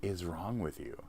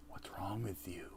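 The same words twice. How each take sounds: First: Said in the usual way. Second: Voiceless whisper; whispered movie quote. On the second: Acted. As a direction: hiss it out like the movie. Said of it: "You know what movie that's from".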